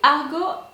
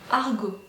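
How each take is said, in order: First: The name is said with an English pronunciation. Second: The name is said with a French pronunciation. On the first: "I don't know how to pronounce it in English" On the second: "in French"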